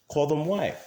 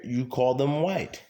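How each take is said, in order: First: White pitched higher and pushed; stress on white. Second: Said in the usual way. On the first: Real, not acted. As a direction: repeat it, landing hard on white.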